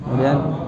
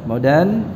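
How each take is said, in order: Both takes have the same delivery.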